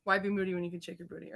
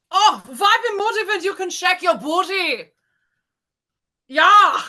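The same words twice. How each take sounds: First: Said in the usual way. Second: High, hammed-up German accent. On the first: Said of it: "Hold on, gathering myself". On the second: Shown as a demonstration. Contestant attempting the given phrase, shaky-grasp German accent. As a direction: put on a comic German accent, pitched up.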